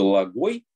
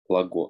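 First: The word ends with an added i sound. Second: The word ends in a plain o sound. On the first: "как бы лагой, но йота не читается" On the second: "Вот так"

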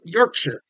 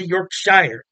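First: The ending is a short, reduced 'sher' sound. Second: The ending is a full 'shire' sound. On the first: This is how locals say it. The speaker calls it right. "That's how you say it" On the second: This is how an American would say it. The speaker calls it wrong. "Not Shire. You don't say Yorkshire"

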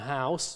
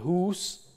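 First: The vowel is the diphthong 'ow'. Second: The vowel is a long 'oo'.

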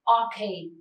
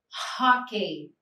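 First: The word starts with a vowel and no H sound. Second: The word starts with an audible H sound. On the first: The speaker calls it wrong. "we don't say okay" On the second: The speaker calls it right. "We say hockey"

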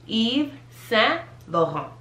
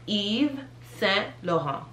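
First: The final T sounds are silent. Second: The same.

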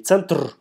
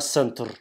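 First: It is said like the Russian word. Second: It is said like the English word. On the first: The speaker calls it wrong. "Не центр" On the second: The speaker calls it right. "произношение меняется"

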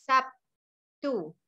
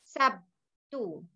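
No difference in how they are said.

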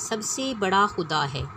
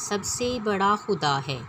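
The two takes are said the same way.

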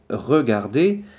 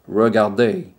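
First: The R is made in the throat. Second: The R is made the English way. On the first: "this sound is a bit difficult because it's come from the throat" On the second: "a British person would say something like regardez"

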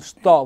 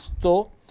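First: The o vowel is open. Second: The o vowel is closed. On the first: It is a form of the verb to stay. "non sto, voce verbo stare" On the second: It means this, a demonstrative. "con l'accento fonico chiuso"

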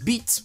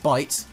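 First: The vowel is said like a French 'ee'. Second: The vowel is said like an English 'eye'. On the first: It is slang for a body part. "with a French accent" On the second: It means an ordinary bite. "which is bite"

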